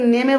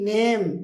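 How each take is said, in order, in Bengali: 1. শেষের e একটি অতিরিক্ত শব্দাংশ হিসেবে উচ্চারিত হয়। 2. শেষের e নীরব, শুধু একটি শব্দাংশ। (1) "আমরা এই ওয়ার্ডটাকে নেমে বলছি না" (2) "কি বলছি? N A M ই, নেম"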